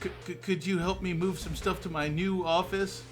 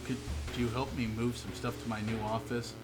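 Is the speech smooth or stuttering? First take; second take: stuttering; smooth. First: The question is read with a twitchy stutter. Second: The question is read smoothly without stuttering.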